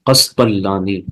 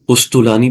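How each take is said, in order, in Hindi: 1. पहले दो स्वर 'a' की आवाज़ हैं। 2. पहले दो स्वर 'u' की आवाज़ हैं। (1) "काफ और तौ दोनों की फतहा के साथ है, और लाम तशदीद है" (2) "भी बोलते हैं उसको"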